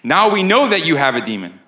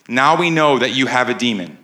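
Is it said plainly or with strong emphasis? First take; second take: strong emphasis; plainly. First: It is said forcefully, with strong emphasis. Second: It is said plainly, without strong emphasis.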